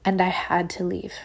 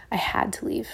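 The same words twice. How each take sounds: First: Said in the usual way. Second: Whispered. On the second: Real, not acted. Repeated quietly for weight.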